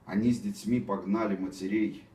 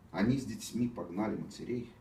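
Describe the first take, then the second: First: The voice sounds pompous and overly solemn. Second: The voice sounds restrained, without pompous pathos. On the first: The speaker calls it wrong. "Опять какой-то этот пафос ненужный" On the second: The speaker calls it right. "получше, чем было"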